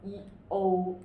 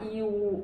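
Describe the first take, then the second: First: "E O" ending in an oh sound; the corrected "E O" with an oh ending; correct vowel blend. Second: "E U" ending in an oo sound; the mistaken "E U" with an oo ending; wrong vowel blend. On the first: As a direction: say "E O" as ee, then a rounded oh. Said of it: "but it's E O". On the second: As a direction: say "E U" as ee gliding to oo. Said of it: "it's not E U". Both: Shown as a demonstration.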